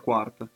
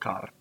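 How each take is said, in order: First: The name is said with its Italian pronunciation. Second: The name is said with its local dialect pronunciation. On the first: "in italiano sarebbe quart" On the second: "In patois, che è il dialetto valdostano, si dice car"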